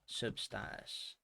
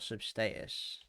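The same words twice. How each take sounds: First: The word is said the American way. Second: The word is said the English way. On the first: "as if you're American" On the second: "or English"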